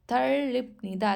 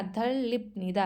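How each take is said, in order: First: धरलिपनिदा said slowly, each syllable clear and apart; slow careful model. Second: Said in the usual way. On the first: Shown as a demonstration. Teacher modelling धरलिपनिदा for students, slow and deliberate. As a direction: lay out धरलिपनिदा slowly so learners can copy it. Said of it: "teacher models the new word". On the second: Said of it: "then repeats at normal pace".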